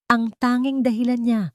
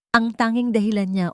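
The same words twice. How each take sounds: The two takes are said the same way.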